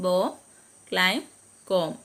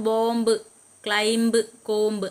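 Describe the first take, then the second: First: "ബോം, ക്ലൈം, കോംബ്" ending on m, b left silent. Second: "ബോംബ്, ക്ലൈംബ്, കോംബ്" with the final b sounded; wrong pronunciation. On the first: Teacher models the right way, "ബോം, ക്ലൈം, കോംബ്" with silent b. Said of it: "ബി silent ആണ്". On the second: Teacher shows learners the wrong way, "ബോംബ്, ക്ലൈംബ്, കോംബ്" with audible b. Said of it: "അങ്ങനല്ല പറയാനുള്ളത്". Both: Shown as a demonstration.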